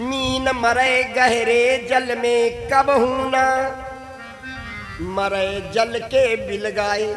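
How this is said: The pause comes after 'कबहू ना'. A fish never dies in deep water but dies away from it.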